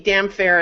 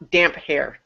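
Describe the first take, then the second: First: It is said as damn plus fair. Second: It is said as damp plus hair. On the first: The speaker calls it wrong. "why would it be damn fair" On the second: The speaker calls it right. "Damp hair makes literal sense"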